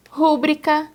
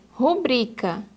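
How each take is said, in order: First: Rúbrica stressed on the first syllable RÚ; wrong stress. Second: Rubrica stressed on BRI; correct stress. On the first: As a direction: hit RÚ in Rúbrica. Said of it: "quando o correto é rubrica". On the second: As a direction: put the weight on bri in rubrica. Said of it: "o correto é rubrica". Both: Shown as a demonstration.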